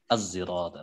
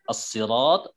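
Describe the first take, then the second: First: The word begins with an s blended toward z. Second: The word begins with an emphatic, heavy s sound. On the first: "dengan zai ishmam" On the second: "membaca dengan sod"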